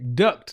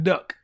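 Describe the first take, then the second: First: The word ends with a clear t sound. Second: The word ends without any t sound. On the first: The speaker calls it right. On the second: The speaker calls it wrong. "not duck"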